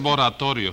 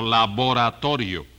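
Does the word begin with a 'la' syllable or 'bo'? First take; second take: bo; la. First: The first syllable 'la' is dropped. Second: The word starts with the syllable 'la'. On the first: The speaker calls it wrong. "No se dice boratorio" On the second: The speaker calls it right. "sino laboratorio"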